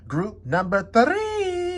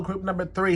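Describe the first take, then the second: First: Stretched slow and high, singsong; drawn-out singsong. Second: Said in the usual way. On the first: Shown as a demonstration. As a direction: sing it out slowly like a greeting. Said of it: "sign-off call to the group". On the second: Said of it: "repeated greeting, plain".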